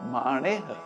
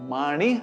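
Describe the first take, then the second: First: The second vowel is a short, light i. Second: The second vowel is a full i sound. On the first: The speaker calls it right. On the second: The speaker calls it wrong.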